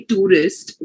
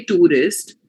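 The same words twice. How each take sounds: First: "tourist" said the way they say it; their pronunciation. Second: "tourist" said the Indian English way; local Indian pronunciation. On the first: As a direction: demonstrate their version of "tourist". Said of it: "the way they say tourist". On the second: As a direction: demonstrate our own version of "tourist". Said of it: "we say tourist". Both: Shown as a demonstration.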